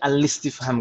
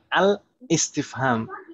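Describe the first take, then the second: First: The l runs straight on with no catch. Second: A glottal catch is sounded before the i. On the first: The speaker calls it right. "karena hamzah ini adalah hamzah wasal" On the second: The speaker calls it wrong. "bukan al-istifham"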